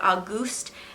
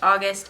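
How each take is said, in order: First: The name sounds different from the month. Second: The name sounds like the month August. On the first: This is how the audiobook narrator said it. "she was pronouncing it Auguste" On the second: This is how the name is said locally. "here, August is pronounced August"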